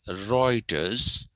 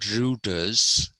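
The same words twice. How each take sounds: First: The first vowel sounds like 'oi'. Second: The first vowel sounds like 'oo'. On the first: The speaker calls it right. "the pronunciation becomes oi" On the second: The speaker calls it wrong. "It is not"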